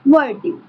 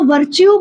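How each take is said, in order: First: The middle consonant is a 't' sound. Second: The middle consonant is a 'ch' sound. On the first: This is the exact form the spelling reflects. "It's exact pronunciation is वर्ट्यू" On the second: This is how people mostly say it. "हम इसको वर्च्यू बोलते हैं"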